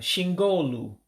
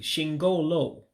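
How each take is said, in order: First: The final vowel sounds like 'oo'. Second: The final vowel sounds like 'oh'. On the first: The speaker calls it wrong. "No, let me say it correctly" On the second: The speaker calls it right. "let me say it correctly"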